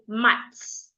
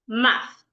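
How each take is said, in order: First: The word ends with a ts sound. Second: The word ends with a breathy th sound. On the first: The speaker calls it wrong. "Some people would even say mats. That is wrong" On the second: The speaker calls it right. "rightly pronounced math"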